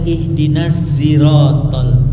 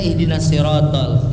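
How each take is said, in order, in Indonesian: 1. Kata 'sirat' diawali dengan bunyi seperti z. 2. Kata 'sirat' diawali dengan bunyi s biasa. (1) "pakai kayak antara zai dengan shin" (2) "kan kita ihdinas sirotol itu hafaz"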